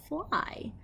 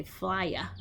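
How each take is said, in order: First: Fly with a long I and nothing after; correct fly. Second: Flya said with an extra uh at the end; wrong flya. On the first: Teacher showing the right way to say fly. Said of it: "We say fly". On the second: Teacher showing the wrong way to say flya. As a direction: say flya, wrongly adding a vowel after the Y. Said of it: "we don't say flya ... We say fly". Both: Shown as a demonstration.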